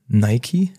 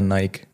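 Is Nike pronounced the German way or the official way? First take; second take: official; German. First: The brand name is said the official way. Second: The brand name is said the German way. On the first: This is the official pronunciation. "offiziell wäre Nike" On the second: This is how it is usually said in Germany. "bei uns in Deutschland ist es schon eher Nike"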